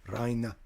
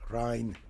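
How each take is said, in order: First: The name sounds like the German word Rhein. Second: The name sounds like the German word Rhein.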